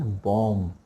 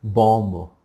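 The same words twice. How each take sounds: First: बॉम्ब with silent b, as bom; बॉम्ब without any b; correct pronunciation. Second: बॉम्ब with the final b sounded; loud बॉम्ब with an audible b; wrong pronunciation. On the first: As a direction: end बॉम्ब on a held m. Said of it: "last में बी नहीं". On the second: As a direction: say बॉम्ब as bom-bo. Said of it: "ब नहीं आएगा". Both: Shown as a demonstration.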